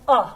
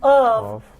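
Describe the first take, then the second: First: The word is reduced to a weak vowel. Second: The word is said in its full form. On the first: "to uh" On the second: "We said up here we reduced of"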